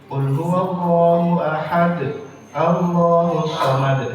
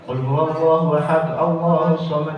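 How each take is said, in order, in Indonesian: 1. Ada jeda setelah ahad. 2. Ahad langsung tersambung ke Allahus tanpa bunyi n. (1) "Harusnya begitu" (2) "kadang-kadang kita asal lanjutannya"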